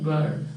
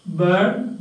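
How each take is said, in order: First: "bird" with the R sounded; spelling pronunciation with R. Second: "bird" said without its R; silent R. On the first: Teacher pointing students to the spelling, R sounded. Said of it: "but spelling you will find bird". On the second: Teacher demonstrating R before a consonant, R left silent. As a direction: drop the R in "bird", only a long vowel before d. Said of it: "Not pronounced because it is". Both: Shown as a demonstration.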